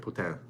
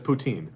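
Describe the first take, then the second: First: It is said the Quebec French way. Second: It is said the English Canadian way.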